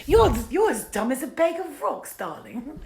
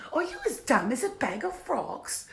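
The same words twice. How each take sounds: First: High, loud theatrical "darling" voice; hammed-up acting take. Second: Alternate acting take. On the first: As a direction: play it as a grand, high-pitched diva. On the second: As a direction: try it in a high, affected character voice. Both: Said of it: "I will try every different kind of acting".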